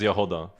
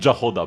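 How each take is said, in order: First: The name begins with a Y sound. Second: The name begins with an English J sound. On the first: The speaker calls it right. "it's kind of like you would put Y in there" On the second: The speaker calls it wrong. "it's not Jahoda. Please don't do this"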